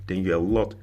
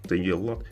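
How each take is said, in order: Both takes have the same delivery.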